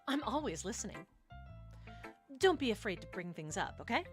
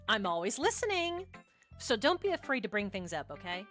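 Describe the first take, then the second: First: It is said in Yuri's character voice. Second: It is said in a different, non-Yuri character voice.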